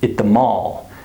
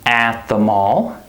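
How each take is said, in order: First: The word 'at' has a reduced schwa vowel. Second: The word 'at' has a full vowel. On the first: The speaker calls it right. "I say at the mall. The A becomes reduced" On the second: The speaker calls it wrong. "I don't say at the mall"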